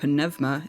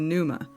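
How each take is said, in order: First: The word is pronounced the way Greek speakers say it. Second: The word is pronounced the usual English way.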